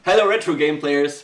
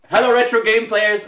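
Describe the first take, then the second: First: Said in the usual way. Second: Loud, high greeting; over-loud, high-pitched show opener; too loud. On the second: Real, not acted. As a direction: belt out the hello a bit too loudly. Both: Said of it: "that was a little bit too loud".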